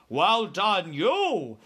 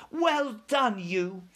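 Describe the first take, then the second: First: Louder, swinging giant's voice; BFG praising. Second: Put-on high-pitched little girl's cheer; Sophie crying out. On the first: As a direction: praise with big, lilting emphasis. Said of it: "said the B F G". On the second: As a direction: praise in a higher, lighter voice. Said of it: "Sophie cried". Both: A narrator's reading.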